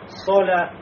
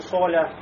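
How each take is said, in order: First: The vowel is open, with unrounded lips. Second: The vowel is rounded, with lips pushed forward. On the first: The speaker calls it right. "То есть говорим, да, соля" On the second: The speaker calls it wrong. "ну не соля"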